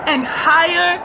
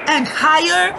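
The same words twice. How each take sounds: The two takes are said the same way.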